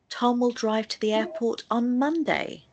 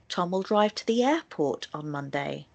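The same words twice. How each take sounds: First: The word Monday carries the main stress. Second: The word airport carries the main stress. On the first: It happens on that day and no other. "the stress will naturally go on the word Monday" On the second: Tom is going there and to no other place. "stress will naturally be placed on the word airport"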